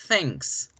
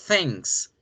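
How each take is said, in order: No difference in how they are said.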